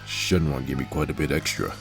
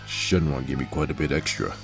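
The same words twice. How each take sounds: First: It is read in a put-on character voice. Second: It is read in a put-on character voice.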